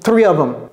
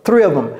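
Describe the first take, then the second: No difference in how they are said.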